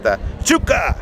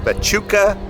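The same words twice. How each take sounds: First: The name is said in an excited, exclaiming way. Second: The name is said in a plain, flat way.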